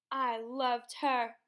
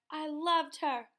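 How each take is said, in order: First: Slow, louder, heavy father's claim; father insisting to his son, slow and loud; slow grieving insistence. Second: Higher, louder, slow insistence; father repeating his claim, slower, higher, louder; pained repetition. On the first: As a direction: drag the words out, pressing them louder. Father answers grieving, shouted at. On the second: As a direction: lean harder on it the second time. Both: A narrator's reading.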